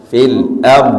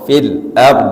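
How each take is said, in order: The two takes are said the same way.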